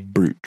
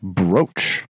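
First: The vowel is a long 'oo' sound. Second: The vowel is an 'oh' sound. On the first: The speaker calls it wrong. "I have heard people pronounce that as a brooch" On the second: The speaker calls it right. "But it is in fact brooch"

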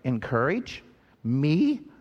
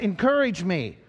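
First: The voice rises at the end, like a question. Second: The voice falls at the end, like a statement. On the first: The speaker wonders whether they must do the encouraging. "Others of you would be doing it this way" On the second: The speaker is asking to be encouraged. "Some of you would be saying it kind of like this way"

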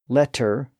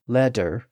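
First: The middle consonant is a clear T sound. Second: The middle consonant is a clear D sound. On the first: "evolved from an initial T sound" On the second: "to a D sound"

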